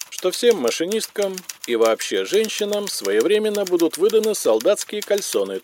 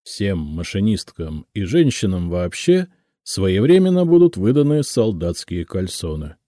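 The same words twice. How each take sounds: First: High-pitched official dictation; sustained high bureaucratic monotone; telephonogram dictation. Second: Said in the usual way. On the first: A narrator's reading. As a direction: dictate it formally over the telephone. Same words as telephonogram dictation.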